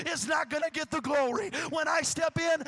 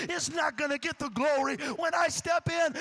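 No difference in how they are said.

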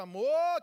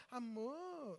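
First: Loud, forceful pet name; angry endearment. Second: Much softer, drawn-out pet name; soft endearment. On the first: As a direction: bark the endearment in acted anger. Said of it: "não, tô com raiva". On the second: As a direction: coo it softly to the wife. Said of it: "eu não preciso falar". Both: Shown as a demonstration.

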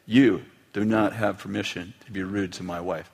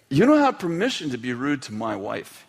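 First: "do not" spelled out firmly, lower voice; emphatic repeated reprimand. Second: Firm retold reprimand; stern father. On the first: Retold or imitated. Father repeats the rule to his son, stern stress on "do not". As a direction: lean on each word of "You do not", low and measured. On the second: Father to son who was rude to mom, stern. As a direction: lay down the rule to a son.

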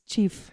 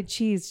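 First: "chief" said for cheese, the s sound turned to f; speech impediment. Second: Said in the usual way. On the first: Shown as a demonstration. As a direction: say "chief" with a fricative f ending instead of s. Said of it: "when she tries to say cheese, she says chief". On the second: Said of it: "when she tries to say cheese".

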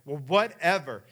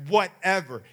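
First: A louder, sassy whatever; sassy dismissal. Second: Higher, much louder, defiant whatever; defiant sass. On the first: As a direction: brush her mom off like a bratty eight-year-old. Daughter sasses her mom. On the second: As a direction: throw the word at her mom as the door slams. Daughter slams door on mom. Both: Retold or imitated.

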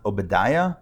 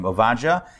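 First: Obadiah said the English way, with a b; English-style Obadiah, stressed on "die"; English pronunciation. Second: Ovadja said the Hebrew way, with a v; Hebrew-style Ovadja with an "ah" in the middle; Hebrew pronunciation. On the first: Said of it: "In English, I think it's pronounced". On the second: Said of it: "It's his Hebrew name". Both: Shown as a demonstration.

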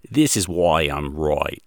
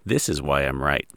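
First: Put-on slow, light Australian accent, right as roy. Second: Said in the usual way. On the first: Host imitates Ken Ham's closing line in a mild Australian accent. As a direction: drag it out in a mild Aussie voice. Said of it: "That's an awesome Australian accent there". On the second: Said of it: "Or in Ken Ham's case".

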